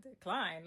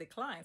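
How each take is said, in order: First: Incredulous. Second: Machine readout. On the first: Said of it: "So I'm like". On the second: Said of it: "I kept saying". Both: Retold or imitated.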